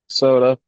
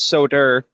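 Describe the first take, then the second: First: It ends in a plain vowel, without an r. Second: It ends with an added r, New England style.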